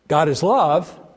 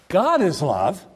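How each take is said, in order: First: The stress is on the word love. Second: The stress is on the word God.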